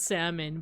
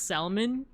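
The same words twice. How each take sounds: First: The last syllable is a weak 'mun'. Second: The last syllable is a full 'mon'. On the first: The speaker calls it right. "I know it's pronounced salmon" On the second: The speaker calls it wrong. "grew up pronouncing it as salmon"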